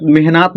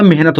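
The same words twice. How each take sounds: First: मेहनत as meh-naat, long aa; wrong long vowel in मेहनत; misread मेहनत. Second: मेहनत as meh-nat, short vowel; natural short ending on मेहनत; correct मेहनत. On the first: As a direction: lengthen the end of मेहनत to naat. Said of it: "मेहनत नहीं होता". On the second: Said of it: "मेहनत होता है". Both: Shown as a demonstration.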